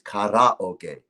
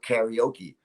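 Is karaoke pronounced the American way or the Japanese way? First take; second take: Japanese; American. First: It is pronounced the original Japanese way. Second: It is pronounced the American English way. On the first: This is the original form of the word. The speaker calls it right. "It is karaoke" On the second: This is how Americans say it. The speaker calls it wrong. "Americans, you know, they go, yeah, I'm going to go karaoke"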